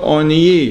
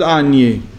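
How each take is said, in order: First: The word begins with an 'o' sound. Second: The word begins with an 'a' sound. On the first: The speaker calls it right. "it says Zechor Oni" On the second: The speaker calls it wrong. "not Ani"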